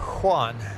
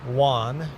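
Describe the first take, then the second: First: The name begins with an H sound. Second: The name begins with a W sound. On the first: "with a H, starting with a H sound" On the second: "as if it starts with a W"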